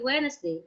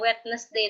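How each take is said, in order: First: The middle d sound is left silent. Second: The middle d sound is pronounced. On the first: The speaker calls it right. "D-nya nggak dibaca" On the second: The speaker calls it wrong. "bukannya Wednesday"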